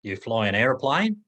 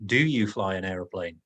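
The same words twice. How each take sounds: First: "You fly an aeroplane?" rising on "aeroplane"; "You fly an aeroplane?" with rising intonation at the end; rising question. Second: "Do you fly an aeroplane?" with a falling end; grammatical question. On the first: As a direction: ask it only with the upward lift. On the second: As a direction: ask it with the word order, let it drop. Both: Shown as a demonstration. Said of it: "As in".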